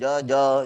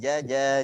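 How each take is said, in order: First: The j sound is thick and heavy. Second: The j sound is thin and light. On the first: The speaker calls it wrong. "jangan jaja" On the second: The speaker calls it right. "Tapi jaja, jiji, juju. Tipis"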